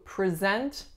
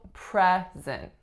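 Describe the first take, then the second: First: The stress is on the second syllable. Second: The stress is on the first syllable. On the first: It is a verb: to introduce someone. "Our strongest syllable is the second" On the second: It is a noun: a gift. "Winning syllable is on the first"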